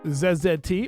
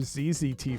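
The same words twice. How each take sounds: First: The letters are said in a non-American way. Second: The letters are said in an American way.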